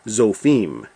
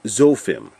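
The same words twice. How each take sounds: First: The stress is on the last syllable. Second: The stress is on the first syllable. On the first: This is the Hebrew way of saying it. "So this would actually be" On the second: This is the English way of saying it. "we put the accent on the first syllable"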